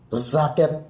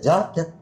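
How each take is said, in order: First: The word begins with a z sound. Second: The word begins with a j sound. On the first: The speaker calls it wrong. "Giliran J dibacain Z" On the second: The speaker calls it right. "Oh, jaket ya jaket"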